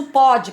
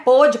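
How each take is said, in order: First: "pode" slow, with an open o. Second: "Pôde" slow, with a closed o. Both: Shown as a demonstration.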